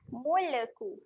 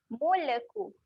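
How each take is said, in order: No difference in how they are said.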